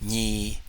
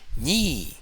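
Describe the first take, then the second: First: The syllable is drawn out with a long tone. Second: The syllable is said on a high tone.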